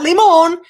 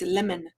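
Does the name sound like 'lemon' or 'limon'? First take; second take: limon; lemon. First: The name is said as limon, not like lemon. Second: The name is said exactly like the fruit lemon. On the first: The speaker calls it wrong. "not limon" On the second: The speaker calls it right. "pronounced like a lemon"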